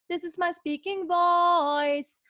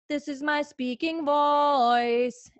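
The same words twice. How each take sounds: First: It is spoken at a somewhat higher pitch. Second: It is spoken at a low, relaxed pitch.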